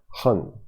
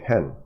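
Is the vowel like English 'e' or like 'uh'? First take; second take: uh; English e. First: The vowel sounds like a short 'uh'. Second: The vowel sounds like English 'e'. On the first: "in Chinese, it's more like hun" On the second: "if you had this word in English, we'll just say hen"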